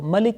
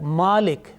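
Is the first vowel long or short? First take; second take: short; long. First: The first vowel is short. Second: The first vowel is drawn out long. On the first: "the first example" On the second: "which is a bit longer voice"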